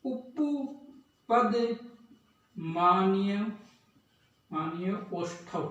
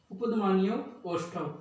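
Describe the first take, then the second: First: Slow teacher dictation; drawn-out dictation. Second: Said in the usual way. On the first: Shown as a demonstration. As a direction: stretch उपपद very slowly, then मान्य ओष्ठव. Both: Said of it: "तो इसका सूत्र है".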